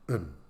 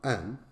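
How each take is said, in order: First: The vowel is reduced to a short, weak sound. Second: The vowel is full and clearly pronounced. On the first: "a weak one" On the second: "A strong one"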